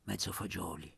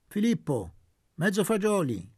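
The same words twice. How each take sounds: First: Much softer, lower, timid order; whispered timid request; under his breath. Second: Loud, commanding call to the waiter; sharp peremptory shout; peremptory order. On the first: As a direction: ask shyly so no one hears. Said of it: "ma sottovoce". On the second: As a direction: bark the order across the tavern. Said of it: "detto con tono perentorio". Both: Acted.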